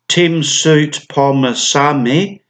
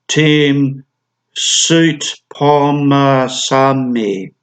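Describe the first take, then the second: First: Said in the usual way. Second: SOUTPHOMMASANE drawn out syllable by syllable; very slow reading. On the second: Shown as a demonstration. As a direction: spell out Soutphommasane slowly by sound, stretching each part. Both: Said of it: "have to read this name slowly".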